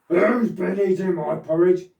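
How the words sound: It is said in a big, deep voice.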